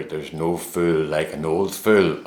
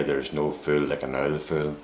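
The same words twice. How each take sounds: First: Said in the usual way. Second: Put-on Northern Irish "There's no fool like an old fool", with "like" said as "ike" and "old" as "ould"; local Northern Irish accent. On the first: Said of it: "you know the expression". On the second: Shown as a demonstration. Northern Irish man giving the saying as locals say it, in a local Northern Irish accent. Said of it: "as we would say here".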